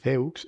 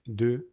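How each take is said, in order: First: DEUX read as Spanish "de-uks"; wrong spelling pronunciation. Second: DEUX as "duh", silent x; correct French deux. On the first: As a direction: say "deux" letter by letter, x sounded. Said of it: "el número dos no es". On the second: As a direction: say "deux" with rounded vowel and no final consonant. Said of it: "es deux". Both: Shown as a demonstration.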